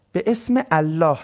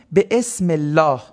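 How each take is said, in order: First: به اسم الله parted as be esme Allah; words separated. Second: به اسم الله run together as be-esmellah. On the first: Teacher breaking down the phrase, الله said as its own word. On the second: Teacher quoting the phrase, به اسم الله joined as esmellah. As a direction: join اسم straight into الله in به اسم الله. Joins, then separates the same phrase. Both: Shown as a demonstration.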